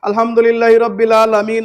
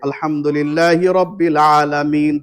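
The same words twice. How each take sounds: First: It runs straight into the next verse. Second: It stops with a pause after the verse. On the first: The reciter is showing off how fluently he can recite. The speaker calls it wrong. "অনেক আছে বেহুদার মতো পড়ে যাচ্ছে।" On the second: The reciter leaves room for the reply to the verse. The speaker calls it right. "থামবেন।"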